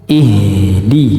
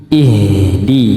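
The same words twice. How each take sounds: Both takes have the same delivery.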